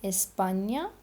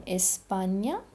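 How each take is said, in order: Both takes have the same delivery.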